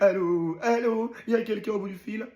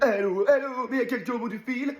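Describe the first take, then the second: First: It is said at a slower pace. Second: It is said quickly.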